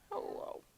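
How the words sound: It sounds sad and low.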